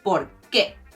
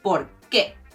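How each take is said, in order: First: The stress is on the second syllable. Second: The same.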